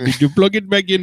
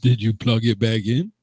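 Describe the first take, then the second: First: It is said in an exaggerated put-on accent. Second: It is said in the speaker's ordinary voice. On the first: "If I was doing the racist IT voice" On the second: "that's your regular voice"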